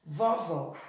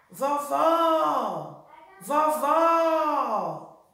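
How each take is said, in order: First: Said in the usual way. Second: "vovó" called out with a long open final "vó"; "vovó" drawn out on its last syllable; stress on the last syllable. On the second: Shown as a demonstration. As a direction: stretch the second syllable of "vovó" high and long. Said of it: "o segundo vó".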